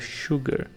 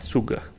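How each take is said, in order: First: The word starts with a 'sh' sound. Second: The word starts with a plain 's' sound. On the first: The speaker calls it right. "tem esse som como se fosse pra gente um S H" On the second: The speaker calls it wrong. "isso aí não é sugar, não existe"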